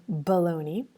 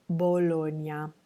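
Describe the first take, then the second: First: Bologna with a puff of air on the B; aspirated bologna. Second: Bologna with no puff of air on the B; unaspirated Bologna. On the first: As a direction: say bologna the English way, breathy B. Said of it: "instead of saying bologna, we would say". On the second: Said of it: "we would say Bologna". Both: Shown as a demonstration.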